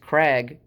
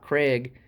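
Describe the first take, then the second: First: The vowel sounds like the one in 'bag'. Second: The vowel sounds like the one in 'day'. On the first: The speaker calls it right. "Notice I'm enunciating Krag" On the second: The speaker calls it wrong. "so many people call it Craig like a man's name, but it's not Craig"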